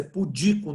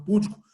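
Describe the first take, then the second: First: "pudico" stressed on the middle syllable DI. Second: "púdico" stressed on the first syllable PÚ. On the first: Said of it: "que a pronúncia é pudico". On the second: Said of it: "não púdico". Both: Shown as a demonstration.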